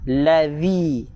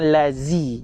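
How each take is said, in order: First: The middle consonant is a soft th sound. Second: The middle consonant is a z sound. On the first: The speaker calls it right. "keluar lidah" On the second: The speaker calls it wrong. "jangan gigi berjumpa dengan gigi"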